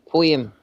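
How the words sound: It is said in a Scottish accent, with a y-sound. "how they say poems in Scotland, they put say poem with a Y"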